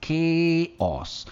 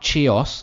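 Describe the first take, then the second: First: The word begins with a K sound. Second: The word begins with a CH sound. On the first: The speaker calls it right. "वो के से ही pronounce होते हैं" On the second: The speaker calls it wrong. "Not chaos"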